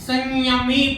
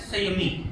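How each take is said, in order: First: The word is said slowly with lengthened syllables. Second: The word is said quickly with short syllables. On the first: "लेकिन उच्चारण इसका अधिक है" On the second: "अगर छोटा होता तो हम केवल पढ़ते संयमी"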